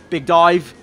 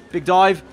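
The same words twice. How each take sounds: The two takes are said the same way.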